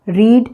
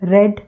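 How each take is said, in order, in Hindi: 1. स्वर लंबा है, 'reed' की तरह। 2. स्वर छोटा है, 'red' की तरह। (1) "रीड यानी पढ़ना" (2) "थर्ड फॉर्म को रेड पढ़ते हैं"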